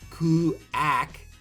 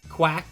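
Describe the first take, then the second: First: The u is a separate oo vowel. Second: The u is a quick w glide. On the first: The speaker calls it wrong. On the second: The speaker calls it right.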